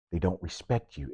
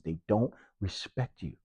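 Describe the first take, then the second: First: Said in the usual way. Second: Slow, quiet, weighted repeat; slow down and let it land; deliberate slower restatement; slow emphatic repeat. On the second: Real, not acted. Repeated accusation.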